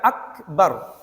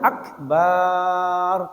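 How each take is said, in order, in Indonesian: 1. Vokal setelah b dibaca pendek. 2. Vokal setelah b dibaca panjang. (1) "Harus dibaca" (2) "Tidak boleh dibaca akbar, tidak boleh"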